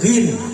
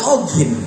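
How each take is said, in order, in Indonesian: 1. Kata ini langsung dimulai dengan konsonan. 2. Ada vokal o ekstra sebelum konsonan. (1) "kalau kita sekarang gin" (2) "orang dulu kan ogin"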